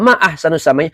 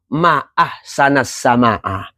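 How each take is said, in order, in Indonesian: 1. Akhirannya memakai vokal u dan i. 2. Kedua akhiran memakai vokal a. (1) "apakah yang paling indah di langit?" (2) "kalau kagum"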